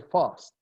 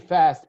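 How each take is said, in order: First: It is said with a British accent. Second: It is said with an American accent. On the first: "In England, they say fast" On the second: "I say fast because I grew up in the United States"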